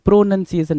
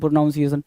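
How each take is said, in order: First: The second syllable sounds like 'nun'. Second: The second syllable sounds like 'noun'. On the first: The speaker calls it right. "नन है ना" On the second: The speaker calls it wrong. "हर बच्चा ये बोलता है"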